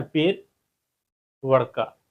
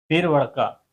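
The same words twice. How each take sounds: First: "पेर" then a pause before "वड़का"; slow split demo. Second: Said in the usual way. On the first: Shown as a demonstration. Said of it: "है ना?". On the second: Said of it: "या".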